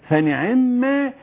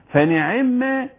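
The two takes are said the same way.

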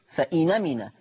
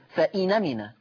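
First: The glottal stop is dropped; the n takes 'a'. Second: The same.

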